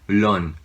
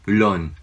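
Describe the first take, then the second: Both takes have the same delivery.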